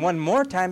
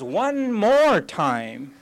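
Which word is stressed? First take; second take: none; more. First: The words are said evenly, without special stress. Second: The word "more" is stressed.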